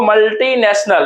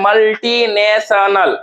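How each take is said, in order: First: Said in the usual way. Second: मल्टीनेशनल slowly split into its syllables. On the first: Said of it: "हम कहते हैं मल्टीनेशनल". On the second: Shown as a demonstration. Teacher showing students how we say it, मल्टीनेशनल slowly in parts. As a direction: draw out each part of मल्टीनेशनल. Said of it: "हम कहते हैं".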